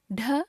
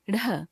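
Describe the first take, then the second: First: "ढ" as a firm curled-tongue d with aspiration; undotted ढ sound. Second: "ढ़" as a flicked r released with breath; dotted ढ़ flap. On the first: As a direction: say "ढ" as a breath-released retroflex stop. ("ढ" का महाप्राण स्पर्श उच्चारण) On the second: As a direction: say "ढ़" as an aspirated retroflex flap. ("ढ़" का महाप्राण उत्क्षिप्त उच्चारण) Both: Shown as a demonstration. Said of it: "आइए इनका उच्चारण करके देखते हैं".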